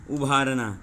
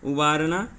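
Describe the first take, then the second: First: उभारना with a breathy aspirated bh and a falling end; teacher's contrast demo of उभारना; careful pronunciation. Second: उबारना with a plain unaspirated b and a rising end; teacher's contrast demo of उबारना; careful pronunciation. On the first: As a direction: push air after the bh in उभारना. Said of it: "जरा सा बस अंतर हो रहा है". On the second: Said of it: "देखिए फिर से एक बार देख लेते हैं". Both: Shown as a demonstration.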